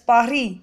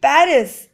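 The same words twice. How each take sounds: First: Said the French way, final s silent. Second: Said the English way, final s pronounced. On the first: "in French it is pronounced as Paris" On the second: "We may speak Paris in English"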